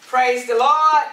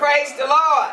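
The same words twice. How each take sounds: First: Louder call. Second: Higher, louder call to praise. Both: Real, not acted. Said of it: "Let's try this again".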